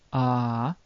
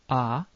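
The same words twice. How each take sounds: First: The vowel is said as a doubled sound. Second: The vowel is held very briefly. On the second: "It can appear short"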